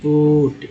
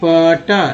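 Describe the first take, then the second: First: The vowel sounds like a short 'oo'. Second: The vowel sounds like 'uh', rhyming with but. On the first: The speaker calls it right. "यानी ऊ पढ़ रहे हैं" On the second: The speaker calls it wrong. "P यू T पट नहीं"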